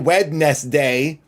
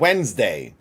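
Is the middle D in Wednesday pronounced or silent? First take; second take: pronounced; silent. First: The middle D is clearly pronounced. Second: The middle D is left out. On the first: The speaker calls it wrong. "You don't say Wednesday" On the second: The speaker calls it right. "You say February and Wednesday"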